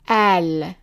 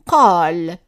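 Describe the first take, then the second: First: The word begins with a glottal stop. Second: The word begins with a deep q sound. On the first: This is the form used in Lebanon and Egyptian cities. "pronounced as an a, for example, in Lebanon or in the cities in Egypt" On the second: This is the form that keeps the standard sound. "if we keep the same sound for the qaf"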